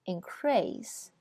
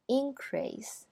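First: Increase with stress on CREASE, second syllable; verb stress. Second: Increase with stress on IN, first syllable higher; noun stress. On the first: Teacher models the verb for students, stress on CREASE. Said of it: "后边是动词". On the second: Teacher models the noun for students, stress on IN. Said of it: "前面是名词". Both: Shown as a demonstration.

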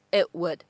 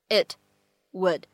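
First: "it would" joined, T in "it" held unreleased; incomplete plosion. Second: Said in the usual way. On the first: Shown as a demonstration. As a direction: hold back the T of "it" into "would". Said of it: "它会有一个类似于不完全爆破的处理". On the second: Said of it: "类似于不完全爆破的处理".

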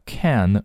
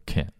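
First: Said in the usual way. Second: "can" reduced to a short "k'n"; weak form. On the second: Shown as a demonstration. Teacher showing learners the weak "can". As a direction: shrink the vowel of "can" to almost nothing. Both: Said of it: "can弱读成can".

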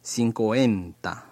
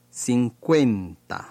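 First: "cincuenta" as sin-ko-EN-ta; second variant. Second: "cincuenta" with kwen as one syllable; first variant. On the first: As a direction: split the middle of "cincuenta" into ko and en. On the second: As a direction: glide straight through the middle of "cincuenta". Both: Shown as a demonstration. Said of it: "都可以".

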